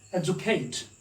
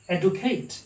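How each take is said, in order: First: "educate" with a j sound, ed-joo-kate; demonstrated British "educate", dj in the middle; British pronunciation. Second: "educate" with a plain d-oo in the middle; demonstrated Western "educate", d kept hard; Western-style pronunciation. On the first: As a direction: say "educate" with d softened to j. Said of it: "British people pronounce it as educate". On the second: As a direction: say "educate" as ed-oo-kate, clear d. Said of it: "Western people pronounce it as educate". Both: Shown as a demonstration.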